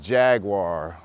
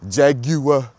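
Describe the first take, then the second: First: It is said with an American pronunciation. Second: It is said with a British pronunciation.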